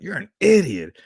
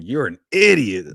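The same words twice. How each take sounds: First: Much higher, louder mock put-down; brother's put-down voice. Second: Quoting brother. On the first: Co-host imitates the brother scoffing, much higher and louder. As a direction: squeak it out like the brother mocking. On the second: Retold or imitated. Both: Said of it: "that's how he says that".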